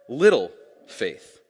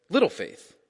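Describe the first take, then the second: First: "little faith" slow, leaning hard on "little"; stress on little faith. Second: Said in the usual way. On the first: Shown as a demonstration. Pastor stressing the disciples' "little faith", slow and weighty. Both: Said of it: "It says that they have".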